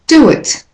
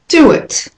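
First: The words are joined by a linking w sound. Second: The same.

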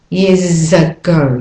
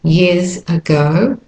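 First: The words run together smoothly. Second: The words are said separately.

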